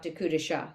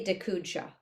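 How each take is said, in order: First: An extra vowel comes before the final syllable. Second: No vowel comes before the final syllable. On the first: It gets carried along by the rhythm of singing. "then it really comes out dekudisha" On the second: It is the technically correct form. "but technically dekudsha"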